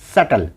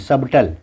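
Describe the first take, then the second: First: No b sound is heard before the t. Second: A b sound is heard before the t. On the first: The speaker calls it right. "बी silence है" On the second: The speaker calls it wrong. "हाँ नहीं"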